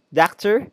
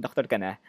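First: Doctor as dakter, higher questioning rise; mock American accent. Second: Said in the usual way. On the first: Shown as a demonstration.

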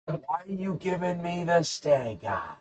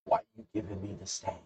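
First: High, slow, drawn-out silly voice; exaggerated mock complaint; hammed-up question. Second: Quick, soft asking; offhand acted question. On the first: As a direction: stretch STANK EYE out in a high mock whine. Second, hammed-up take of question. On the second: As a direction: toss it out quietly and briskly. First take of acted question.

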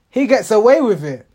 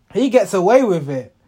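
Both takes have the same delivery.

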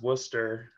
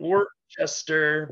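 First: Worcester said as "WUSS-ter"; Worcester with the "ces" swallowed, like "Wuhster"; local pronunciation. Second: Worcester said as spelled, "wor-CHES-ter"; Worcester misread with a "chester" ending; spelling pronunciation. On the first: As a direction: squash Worcester into two syllables, "Wooster". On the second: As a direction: sound out Worcester as "Wor-chester", halting on the first syllable. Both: Shown as a demonstration. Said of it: "but it's pronounced Worcester".

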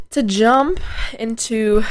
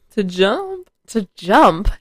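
First: "To jump into" with a cracking voice. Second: Said in the usual way. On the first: Real, not acted. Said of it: "did my voice just crack". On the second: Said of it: "What I was trying to say".

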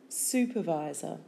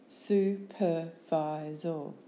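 First: Said in the usual way. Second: Slow "Supervisor" as su, per, vi, sor; syllable by syllable. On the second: Shown as a demonstration. Teacher giving syllables for spelling, Supervisor slowly in beats. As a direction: break Supervisor into four separate beats.

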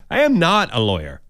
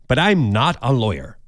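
First: "am" spelled out and leaned on, not contracted; stress on am. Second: Said in the usual way. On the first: Real, not acted. Host insisting to letter writers, stressing "am". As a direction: hit the word "am" firmly. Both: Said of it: "Have I said that before?".

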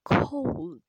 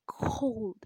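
First: "cold" belted out much louder, higher, falling; very loud, pitched-up "cold"; emphatic cold. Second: "cold" punched loud; loud stress on "cold"; emphatic cold. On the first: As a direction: blast the word "cold". Repeats the word for effect. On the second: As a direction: hit the word "cold" hard. Emphasizing how cold the hand is. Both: Real, not acted.

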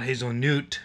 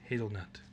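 First: Hazelnut ending in "noot"; mock mispronunciation. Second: Said in the usual way. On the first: Shown as a demonstration. Mocking friend's Nutella logic, "hazel-noot" for hazelnut. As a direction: say hazelnut as "hazel-newt", loudly. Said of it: "why would you call it hazelnut". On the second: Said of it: "No, it's hazelnut".

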